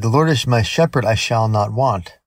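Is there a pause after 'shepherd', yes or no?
no. It runs together quickly with no pause.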